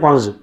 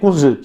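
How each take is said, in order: First: The vowel is an 'au' diphthong sound. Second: The vowel is a short 'u' sound.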